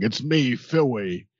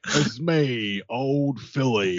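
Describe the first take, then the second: First: Put-on British accent. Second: Phil McKenzie impression. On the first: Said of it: "I wanna have that British accent". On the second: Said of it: "wonderful Phil McKenzie impression".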